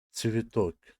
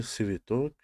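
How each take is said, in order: First: سویتوک begun with a crisp ts, t and s fused; correct ts in цветок. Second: سویتوک begun with a plain s, no t; wrong s version. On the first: Teacher models the right ts for students, carefully. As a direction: open سویتوک with a tight ts. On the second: Teacher shows students the common mistake, a plain s. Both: Shown as a demonstration.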